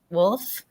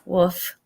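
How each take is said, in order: First: The word is said with an L sound. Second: The word is said without an L sound. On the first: "I honestly can hardly even say it that way in wolf" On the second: "I did not enunciate the L in woof"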